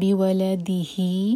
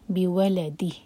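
First: The final h carries a lengthened i vowel. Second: The final h is silent, with no vowel. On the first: The reading continues without stopping. "مد صلہ صغرا تھا" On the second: The reader stops at this word. "یہاں رکیں گے تو پھر ہا کو سکون کر کے رکیں گے"

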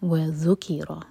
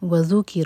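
First: The stress is on the second syllable. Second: The stress is on the first syllable. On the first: The speaker calls it right. "تو ذیل پر زور دیں گے" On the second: The speaker calls it wrong. "وذکر نہیں"

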